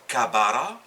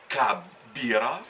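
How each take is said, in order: First: The middle vowel is a. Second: The middle vowel is i. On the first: "on ne dit pas kabara" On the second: "ni kabira"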